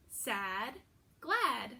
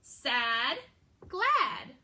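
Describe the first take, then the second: First: Said in the usual way. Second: Put-on teacher modeling "Sad, glad" for kids to echo; modeling the rhyme. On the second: Shown as a demonstration. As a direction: call out "Sad, glad" for the class to repeat. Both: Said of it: "Say it after me".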